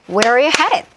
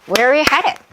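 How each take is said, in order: No difference in how they are said.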